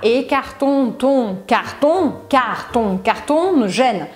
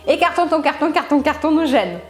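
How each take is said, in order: First: It is said at a slow, careful pace. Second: It is said at a fast, quick pace. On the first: "Aí você vai tentando lembrar" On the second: "Será que você consegue mais rápido do que eu?"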